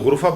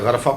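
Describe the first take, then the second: First: The first vowel is a rounded 'u' sound. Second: The first vowel is an open 'a' sound. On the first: The speaker calls it right. "ये गुरफा पढ़ा जाएगा" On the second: The speaker calls it wrong. "गरफा गलत है।"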